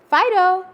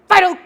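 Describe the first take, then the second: First: The name is called in a warm, friendly tone. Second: The name is called in a sharp, harsh tone. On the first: The dog is being greeted like a friend. The speaker calls it right. "you say it in a more pleasant way" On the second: The dog feels it is in trouble. The speaker calls it wrong. "too harshly"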